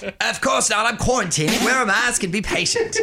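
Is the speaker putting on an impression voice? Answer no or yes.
yes. It is said as an impression with a London accent. "can you redo that, please?"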